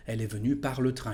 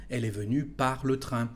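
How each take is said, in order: First: "Elle est venue par le train" run together quickly; rattled off at conversational speed; natural fast speed. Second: Said in the usual way. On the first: Shown as a demonstration. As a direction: say it fast, like everyday talk.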